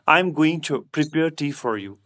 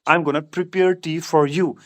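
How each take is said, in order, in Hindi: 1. 'Going to' पूरा बोला जाता है, दो शब्द। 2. 'Going to' घटकर एक शब्द 'gonna' बन जाता है।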